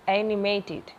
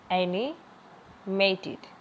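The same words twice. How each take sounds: First: Said in the usual way. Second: animated drawn out very slowly; slow syllable drill. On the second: Shown as a demonstration. (Animated बहुत धीरे बोलें) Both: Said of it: "important है".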